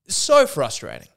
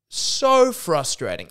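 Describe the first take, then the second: First: Loud exasperated outburst; exasperated, punched louder; frustrated. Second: Slow, loud, higher exasperation; slowly stretched, exasperated groan of words; deeply frustrated. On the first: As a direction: let the frustration out on the first word. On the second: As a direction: drag out SO in exasperation. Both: Real, not acted.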